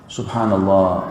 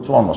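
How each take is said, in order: First: It is said calmly and slowly. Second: It is said in a fast, rushed mumble.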